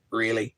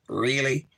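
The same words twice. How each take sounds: First: Dry, doubting "Really?" as a mock challenge; sarcastic. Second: A second, drawn-out sarcastic "Really?"; sarcastic again. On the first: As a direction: throw "Really?" back with a sarcastic edge. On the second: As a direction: needle them once more with "Really?". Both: Shown as a demonstration. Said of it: "be sarcastic and go".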